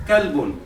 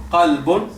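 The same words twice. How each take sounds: First: Kalbun with a front k; Arabic kalbun with a light k. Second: Qalbun with a throaty q; Arabic qalbun from the throat; deep q qalbun. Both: Shown as a demonstration. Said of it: "cuando digamos qalbun kabir".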